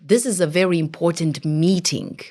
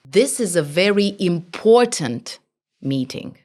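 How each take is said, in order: First: The stress is on meeting. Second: The stress is on important, not meeting.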